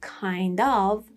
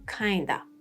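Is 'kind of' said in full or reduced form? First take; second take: full; reduced. First: Both words are said fully and separately. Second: The words blend into one reduced word. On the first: "instead of kind of" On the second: "spoken forms"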